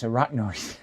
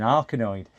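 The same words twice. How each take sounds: First: "arachnoid" said as "a-RAK-noid"; correct arachnoid. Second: "arachnoid" said as "ark-a-noid"; mispronounced arachnoid. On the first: Partner correcting how the streamer says it, correct arachnoid. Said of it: "She went, "It's arachnoid". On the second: Quoting the partner's correction of a name, mispronounced arachnoid. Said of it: "It's arachnoid". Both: Retold or imitated.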